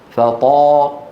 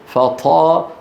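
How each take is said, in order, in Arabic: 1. الطاء مجهورة، ولا يخرج معها أي نفَس. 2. تُنطق الطاء مع خروج نفَس مسموع. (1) "هذه مجهورة" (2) "سمعانين الهواء؟ ما يصح"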